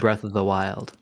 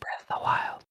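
First: The phrase is said at normal volume. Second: The phrase is said quietly.

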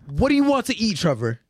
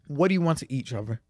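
First: The question is asked in an irritated, sharp tone. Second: The question is asked in a calm, friendly tone. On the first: The question carries annoyance and hostility. The speaker calls it wrong. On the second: The question is asked without any hostility. The speaker calls it right.

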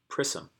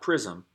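First: The middle consonant is a hissing s sound. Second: The middle consonant is a buzzing z sound. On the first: The speaker calls it right. "Because of the S" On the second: The speaker calls it wrong.

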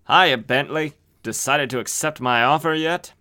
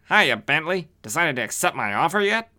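First: It is said in a plain, ordinary voice. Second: It is said in a put-on wise-guy voice.

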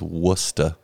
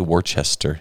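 First: The name is said clipped, like 'Wista'. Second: The name is said fully, with more syllables. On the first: This is how locals say it. The speaker calls it right. "It really is Worcester" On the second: This is how outsiders say it. The speaker calls it wrong. "we don't say Worcester"

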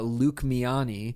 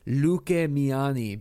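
First: The name is pronounced with English sounds. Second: The name is pronounced with Spanish sounds. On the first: The phone assistant cannot understand the name this way. "I can't say, like, llamar a Luque Miani, because it's not going to understand that" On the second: The phone assistant can understand the name this way. "how you would pronounce it in Spanish"

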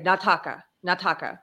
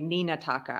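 First: The short form drops the opening syllable 'ni'. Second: The full form keeps the opening syllable 'ni'. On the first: This is casual speech. "They'll just say nataka" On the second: This is formal speech. "that's very formal to say Nina taka"

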